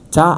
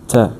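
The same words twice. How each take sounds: First: The vowel is a wide open 'ah' sound. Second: The vowel is a short relaxed schwa sound. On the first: The speaker calls it wrong. "a lot of people try to pronounce it like a very open ah sound" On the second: The speaker calls it right. "very relaxed... Is the schwa sound"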